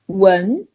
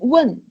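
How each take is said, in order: First: The syllable is said in the second tone. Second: The syllable is said in the fourth tone. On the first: "second one" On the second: "Fourth one"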